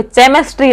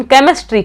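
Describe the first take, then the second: First: "चेमिस्ट्री" opened wrongly with CH as in chair; mispronounced CH. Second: Said in the usual way. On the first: Shown as a demonstration. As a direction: say "चेमिस्ट्री" with a CH sound at the start. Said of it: "चेमिस्ट्री होता ना तब तो". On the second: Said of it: "के की sound निकल रही है".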